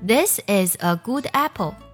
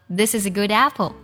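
First: Each word is said separately, without linking. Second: Final consonants link smoothly into the following vowels. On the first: The speaker calls it wrong. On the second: The speaker calls it right.

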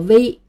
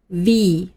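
First: It starts without upper teeth touching the lip. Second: It starts with upper teeth on the lower lip. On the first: The speaker calls it wrong. "经常有人读作V，这是错误的" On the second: The speaker calls it right. "这个字母在英文里读作V"

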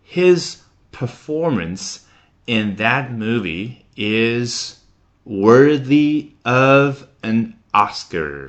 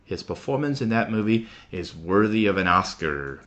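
First: The sentence is spoken at a slower pace. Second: The sentence is spoken at a faster pace.

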